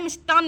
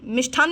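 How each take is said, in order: First: मिष्टान्न with an unpuffed t, mish-taan; no aspiration on the t of मिष्टान्न; plain hard t in मिष्टान्न; correct form shown. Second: मिष्ठान्न with a puffed th, mish-thaann; breath-released th in मिष्ठान्न; wrong form shown. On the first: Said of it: "मिष्टान्न होता है". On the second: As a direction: aspirate the th in मिष्ठान्न. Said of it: "मिष्ठान्न नहीं होता है". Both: Shown as a demonstration.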